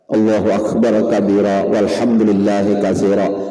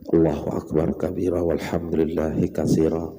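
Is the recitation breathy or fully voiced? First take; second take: voiced; breathy. First: It is fully voiced and audible to others. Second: It is breathy and soft, following the breath. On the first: "Kedengar oleh orang bertiga. Itu waswis ngarannya" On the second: "Khams itu dibaca mengikuti nafas"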